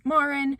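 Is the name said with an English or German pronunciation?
English. The name is said with an English pronunciation. "instead of"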